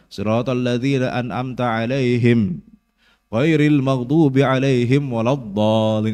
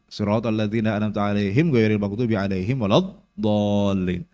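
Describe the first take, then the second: First: The verse is broken by a stop partway through. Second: The verse is recited in one unbroken stretch. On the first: The verse is split in the middle. The speaker calls it wrong. "banyak orang yang wakaf di situ ... Ini salah" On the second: The verse is kept whole as one unit. The speaker calls it right. "maka gabung"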